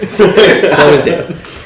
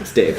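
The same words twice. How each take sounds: First: Slow, loud laughing remark. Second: Said in the usual way. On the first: Real, not acted. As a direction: laugh it out, drawn out. GM laughs, drawn out.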